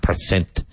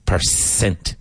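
First: PERCENT lisped as "per-thent"; mispronounced TH for S. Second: PERCENT with a crisp S in the second syllable; careful S sound. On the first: Teacher showing learners the mistake to avoid, TH in "percent". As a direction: say "percent" with TH replacing the S. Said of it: "not percent". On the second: Teacher modelling correct pronunciation for learners, careful S in "percent". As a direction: say "percent" with an S, never a TH. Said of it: "And be careful, percent". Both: Shown as a demonstration.

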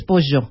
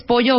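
First: "pollo" con ll rioplatense, "posho"; ll argentina. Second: Said in the usual way. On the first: Shown as a demonstration. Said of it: "argentinos ... pronuncian correctamente la doble L". ("pollo" con la ll fricativa argentina) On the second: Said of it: "¿Quieres pollo o pollo?".

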